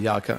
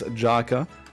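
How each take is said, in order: First: The name is pronounced the German way. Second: The name is pronounced the English way.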